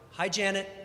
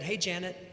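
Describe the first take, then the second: First: It is said a little louder. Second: It is said softly and quietly.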